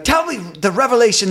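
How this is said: It is said in a Ugandan accent.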